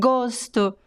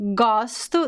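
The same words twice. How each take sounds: First: The stressed o vowel is closed. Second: The stressed o vowel is open. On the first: It is used as a noun. "the noun, is closed" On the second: It is used as a verb. "the verb is open"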